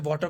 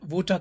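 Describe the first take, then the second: First: The first vowel is an open 'aw' sound. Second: The first vowel is a rounded 'oo' sound.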